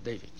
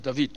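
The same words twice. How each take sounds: First: The name is said the English way. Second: The name is said the Hebrew way. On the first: The speaker calls it wrong. "not David" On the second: The speaker calls it right. "my name is David"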